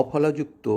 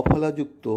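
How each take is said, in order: No difference in how they are said.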